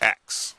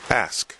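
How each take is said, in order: First: The k sound comes before the s sound. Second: The s sound comes before the k sound. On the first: The speaker calls it wrong. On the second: The speaker calls it right. "as I recall in school, the word ask is A S K"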